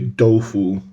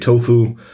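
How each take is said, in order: First: The word is said the Chinese way. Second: The word is said the English way. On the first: This is how Chinese speakers say it. "they say dofu" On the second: This is how English speakers say it. "We say tofu"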